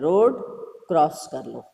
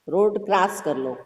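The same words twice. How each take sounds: First: The vowel in 'cross' is an open 'aw'. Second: The vowel in 'cross' is a long 'aa'. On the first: "जैसे ही हम अर्धचंद्र दे देंगे" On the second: "जब हम चिन्ह नहीं देंगे अर्धचंद्र"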